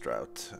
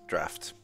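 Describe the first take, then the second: First: The word ends like 'out', with a t. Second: The word ends like 'laughed', with 'aft'. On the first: The speaker calls it wrong. "It's not pronounced drought" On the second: The speaker calls it right. "It's draft"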